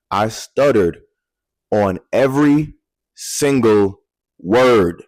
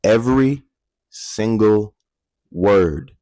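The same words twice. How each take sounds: First: Every single word drawn out slowly; heavy slow stress; slow emphasis. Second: Every, single, word, each set apart with pauses; slow, spaced emphasis; every word separated. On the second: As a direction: punch each word alone. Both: Shown as a demonstration. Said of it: "Did you hear what I just said?".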